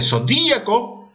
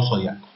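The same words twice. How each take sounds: First: "zodíaco" as zo-DÍ-a-co; stress on DÍ. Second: "zodiaco" as zo-DIA-co; stress on DIA. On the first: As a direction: break "zodíaco" after a strong DÍ. ("zodíaco" con acento en DÍ) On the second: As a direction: glide IA together in "zodiaco", weight on the A. ("zodiaco" con acento en DIA) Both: Shown as a demonstration. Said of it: "palabras con doble acentuación".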